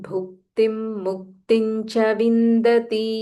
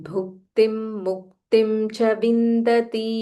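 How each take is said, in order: Both takes have the same delivery.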